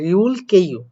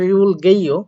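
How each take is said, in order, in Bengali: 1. দ্বিতীয় শব্দটি একটি শক্ত k ধ্বনি দিয়ে শুরু হয়। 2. দ্বিতীয় শব্দটি একটি নরম g ধ্বনি দিয়ে শুরু হয়। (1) "গিউকটার উচ্চারণ ক করতে হয়" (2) "অনেকে উচ্চারণ করতে পারেন রিউল গেইও, বাট এটা আসলে আপনি লিসেনিং শুনতে পাবেন না"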